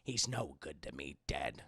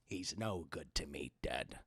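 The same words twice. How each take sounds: First: The voice is not growly. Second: The voice is low and growly.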